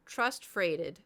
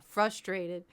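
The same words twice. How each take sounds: First: "Trust freighted", imitating a muddled "frustrated"; sounds switched around. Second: Said in the usual way. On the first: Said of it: "He got it switched around". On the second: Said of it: "And they're like, "Frustrated?".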